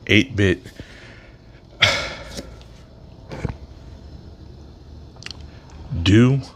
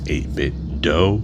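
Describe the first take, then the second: First: The final word rhymes with 'too'. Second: The final word rhymes with 'go'. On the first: This is the speaker's own preferred pronunciation. "is the way I would pronounce it" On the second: This is how some other people pronounce it. "people saying that it's eight-bit dough"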